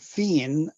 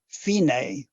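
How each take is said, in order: First: The name ends without a pronounced final vowel. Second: The name ends with a pronounced final vowel. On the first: "Fine, F I N E" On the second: "with an accent mark over the E, which would be Fine"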